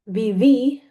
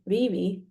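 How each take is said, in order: First: The stress is on the last syllable. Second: The stress is on the first syllable.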